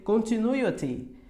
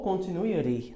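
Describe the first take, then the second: First: Slow CONTINUITY ending in a clear "ti"; T pronunciation. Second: CONTINUITY ending in "ri"; American flapped T. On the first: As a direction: keep a true T at the end of CONTINUITY. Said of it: "vai ter a terminação ti". ("Continuity" devagar, com T claro no final) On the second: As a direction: tap the final T of CONTINUITY. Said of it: "americana ri". ("continuity" terminando em "ri", à americana) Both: Shown as a demonstration.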